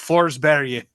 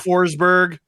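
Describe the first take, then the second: First: The name is said with a Swedish pronunciation. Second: The name is said with an English pronunciation. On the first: The speaker calls it right. "It's Forsberg. And that is how you Forsberg" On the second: The speaker calls it wrong. "Forsberg is not a person"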